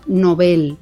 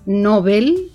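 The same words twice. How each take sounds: First: The stress is on the last syllable. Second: The stress is on the first syllable. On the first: The speaker calls it right. "sino el premio Nobel, ¿eh? Es una palabra aguda" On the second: The speaker calls it wrong. "No es el premio Nobel, como decimos muchos"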